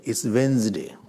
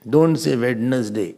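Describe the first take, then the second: First: "Wednesday" as wenz-day, the d silent; right Wednesday. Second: "Wednesday" spelled out as wed-nes-day; over-pronounce every syllable of "Wednesday"; wrong Wednesday. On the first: Teacher gives the class the right "Wednesday". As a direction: say "Wednesday" short with no middle d. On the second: Teacher mocks the wrong "Wednesday" for the class. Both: Shown as a demonstration.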